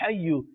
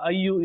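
First: The word starts with an h sound. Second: The word starts directly with a vowel. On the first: The speaker calls it right. "it's Ya Ha, Hayyu" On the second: The speaker calls it wrong. "It's not Ya Ayyu"

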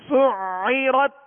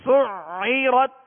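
The two takes are said the same way.

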